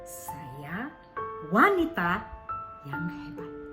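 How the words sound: The second word carries the stress. "Ketika kita tekankan di wanitanya"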